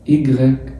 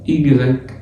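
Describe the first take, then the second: The two takes are said the same way.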